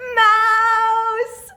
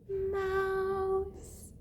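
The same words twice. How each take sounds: First: The word is said very loudly. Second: The word is said very quietly.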